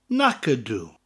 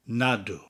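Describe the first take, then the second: First: The phrase is said in its full standard form. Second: The phrase is said in a contracted colloquial form.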